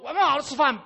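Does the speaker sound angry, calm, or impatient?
angry. It is said in an angry, explosive tone. The caller has lost patience and slammed a bowl down. "是表示某个碗已经摔在地上了"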